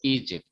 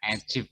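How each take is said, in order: First: The first vowel sounds like 'ee'. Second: The first vowel sounds like 'eh'. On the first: The speaker calls it right. "tapi Egypt" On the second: The speaker calls it wrong. "Bukan Egypt"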